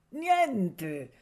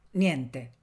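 First: "niente" higher and drawn out, falling away; emphatic repetition. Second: Said in the usual way. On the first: A narrator's reading. Listening in the courtyard and hearing nothing, "niente" long and emphatic. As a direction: stretch "niente" on a high, falling tone.

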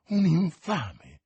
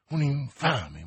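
First: Un infame said louder and slower, infame leaned on; insisting. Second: Said in the usual way. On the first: Acted. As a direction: hammer home un infame. Milady repeats the insult.

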